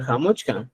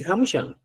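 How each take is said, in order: First: Jamuchkan dicho con ch y k claras: xa-much-kan; pronunciación jamuchkan. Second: Jamushan dicho con sh suave: xa-mu-shan; pronunciación jamushan. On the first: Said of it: "también puedo hablar". (jamuchkan con ch y k bien audibles) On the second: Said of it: "usted puede hablar, decir". (jamushan con sonido sh, sin la k) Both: Shown as a demonstration.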